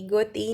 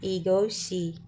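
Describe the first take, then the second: First: The final consonant is said as a t sound. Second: The final consonant is said as an sh sound. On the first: The speaker calls it wrong. "हम इसे ईगोती नहीं प्रोनाउंस करेंगे" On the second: The speaker calls it right. "हम इसे बोलेंगे ईगोशी"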